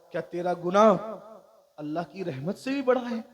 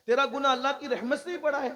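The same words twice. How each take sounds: First: Loud stress on گناہ, then a pause; weighty question. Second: Loud, high, rushed challenge; incredulous question. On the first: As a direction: punch گناہ and hold before finishing the question. First asking, measured rhetorical question. (گناہ پر زور، پھر ٹھہر کر سوال) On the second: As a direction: fire the whole question out in raised astonishment. Repeats the question in amazement. (اونچی، تیز آواز میں حیرت بھرا سوال) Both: Retold or imitated.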